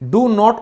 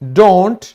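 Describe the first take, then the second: First: It is said as two full words. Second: It is said as one contracted syllable.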